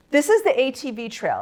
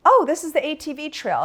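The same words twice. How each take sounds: First: Higher-pitched retold disbelief; mock-incredulous repeat, pitched up; incredulous echo. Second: High, louder retold answer; lifted, matter-of-course reply in a higher voice; breezy explanation. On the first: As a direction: echo it back as if appalled. She echoes the answer in disbelief. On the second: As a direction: imitate a friend's airy explanation. Friend answers her alarmed question.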